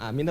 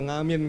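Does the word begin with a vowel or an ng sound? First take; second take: vowel; ng sound. First: The word begins directly with a vowel. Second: The word begins with an ng sound. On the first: "Bilang amin apa ngamin" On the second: "Bilang amin apa ngamin"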